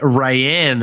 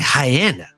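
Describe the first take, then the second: First: The name sounds like the English name Ryan. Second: The name sounds like the word hyena. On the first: The speaker calls it wrong. "I significantly mispronounced this lady" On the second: The speaker calls it right. "sounds like hyena"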